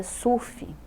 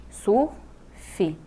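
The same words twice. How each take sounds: First: Said in the usual way. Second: "Surf" as sur, pause, fi; split into syllables. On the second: Shown as a demonstration. Teacher counting two syllables, "Surf" as sur-fi. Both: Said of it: "duas sílabas".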